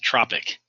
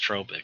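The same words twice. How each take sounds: First: It is pronounced like the word tropics. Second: It is pronounced unlike the word tropics. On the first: The speaker calls it wrong. "you want to pronounce it as tropic, like that's where we should be in the tropics" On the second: The speaker calls it right. "that word is pronounced tropic because it's not an English word"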